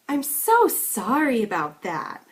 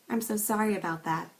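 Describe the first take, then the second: First: The pitch goes very high with strong stresses. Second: The pitch range is narrow with little stress. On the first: The apology seems overdone and hard to believe. "An exaggerated version of this would go a bit higher than the sincere version and would have stronger stresses" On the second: The apology seems insincere. "as understated or insincere. Notice a narrower range of pitch and less stress"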